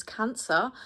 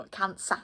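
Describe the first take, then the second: First: Cancer with an American r, kʰæ̃nsər; accented Cancer. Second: Cancer without the r, kʰæ̃nsə; re-said Cancer, non-rhotic; corrected Cancer. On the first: Real, not acted. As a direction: say Cancer the local way, r sounded at the end. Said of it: "I said Cancer in such an accent". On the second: Shown as a demonstration. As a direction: say Cancer the British way, no final r.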